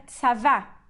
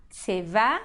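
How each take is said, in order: First: "tsavá" with a clear A in the first syllable; full first vowel. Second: "tsevá" with the first A reduced to a short E; reduced first vowel. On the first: Teacher showing the absolute form of army, "tsavá" with full A. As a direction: say "tsavá" with an open A before the final stress. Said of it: "eles vão virar um shvá". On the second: Teacher showing the construct form of army, "tsevá" with reduced first vowel. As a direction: say "tsevá" with a sheva first, stress on the end. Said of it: "virou um shvá". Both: Shown as a demonstration.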